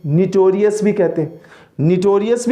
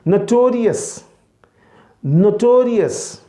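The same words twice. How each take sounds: First: निटोरियस with an i in the first syllable; wrong pronunciation. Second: नोटोरियस with a clear o sound, slow; teacher's careful नोटोरियस; correct pronunciation. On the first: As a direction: demo the mistaken निटोरियस. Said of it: "अब लोग क्या करते हैं जी". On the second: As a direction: model the right नोटोरियस, drawing it out. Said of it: "इसका सही तलफ़ुज़ क्या है". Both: Shown as a demonstration.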